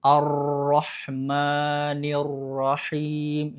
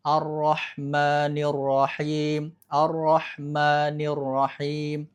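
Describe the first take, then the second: First: Ar-Rahmanir Rahim very slow, ro trilled too long; over-rolled ro. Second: Ar-Rahmanir Rahim slow, ro held with a light trill; controlled ro. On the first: Teacher showing an exaggerated ro trill. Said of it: "Itu lebay, getarannya terlalu banyak". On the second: Teacher giving the correct restrained trill. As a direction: keep the ro in Ar-Rahmanir brief. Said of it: "getarannya harus dijaga cukup". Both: Shown as a demonstration.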